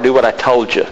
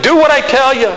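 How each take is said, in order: First: Said in the usual way. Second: "Do what I tell you" high and loud, scolding; hammed-up exasperated God giving orders; nagging God. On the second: God ordering the preacher to obey, high and loud nagging. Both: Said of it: "Do you think God speaks like that?".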